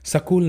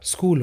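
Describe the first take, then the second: First: A vowel is inserted between s and k. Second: The s and k form one cluster, no vowel. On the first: The speaker calls it wrong. "सकूल नहीं होता" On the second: The speaker calls it right. "स्कूल होता है"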